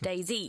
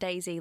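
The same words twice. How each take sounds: First: It ends with the letter name Z. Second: It sounds like the flower name daisy. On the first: The speaker calls it right. "DayZ, you know, letter" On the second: The speaker calls it wrong. "It's not DayZ like little flower"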